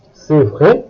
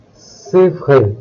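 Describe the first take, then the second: First: "C'est vrai?" swooping up on VRAI; rising question on "C'est vrai?"; question intonation. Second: Said in the usual way. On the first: Shown as a demonstration. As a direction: ask "C'est vrai" with a clear final rise. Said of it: "making your voice go up". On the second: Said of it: "turn it into a question".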